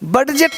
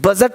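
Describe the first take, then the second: First: The d sound is clearly pronounced. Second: The d sound is left out. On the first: The speaker calls it wrong. "बडजेट नहीं बोलेंगे" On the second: The speaker calls it right. "बजट बोलेंगे"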